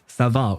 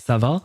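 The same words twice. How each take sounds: First: The voice falls at the end. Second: The voice rises at the end.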